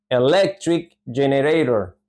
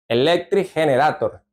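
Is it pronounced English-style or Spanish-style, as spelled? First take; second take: English-style; Spanish-style. First: It is said with English sounds and stress. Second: It is read letter by letter with Spanish sounds. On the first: The speaker calls it right. "Se dice electric generator" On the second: The speaker calls it wrong. "no se va a pronunciar como electric generator. ... No se dice así"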